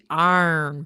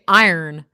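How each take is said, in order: First: The word is drawn out and elongated. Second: The word is said short and compact. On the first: This is how others in the region say it. "They say iron with a much more elongated" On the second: This is the speaker's own way of saying it. "it's not the way I say iron"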